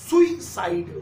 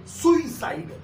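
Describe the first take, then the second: The two takes are said the same way.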